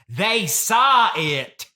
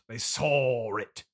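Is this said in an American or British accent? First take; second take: American; British. First: It is said in an American accent. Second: It is said in a British accent.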